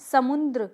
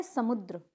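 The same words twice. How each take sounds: First: समुद्र with an added n, "samundra"; incorrect pronunciation. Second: समुद्र softer, as "samudra" without n; correct pronunciation. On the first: Teacher showing a common mistake, समुद्र as "samundra". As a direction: put a nasal n before the d in समुद्र. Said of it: "देखो समुद्र नहीं होता". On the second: Teacher answering her question, समुद्र without nasal n. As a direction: go straight from u to "dra" in समुद्र. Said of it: "होता क्या है?". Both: Shown as a demonstration.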